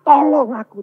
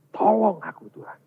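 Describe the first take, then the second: First: Loud, high cry for help. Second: Restrained cry. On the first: Believer crying to God for help, loud high shout. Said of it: "terus teriak". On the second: Believer broken before God, restrained cry for help. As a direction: call for help, then let it drop. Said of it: "kita teriak dengan Tuhan". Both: Acted.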